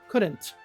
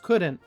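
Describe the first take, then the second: First: The final T is clearly released. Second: The final T is dropped. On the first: "the strong T at the end" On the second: "So he cuts the T off"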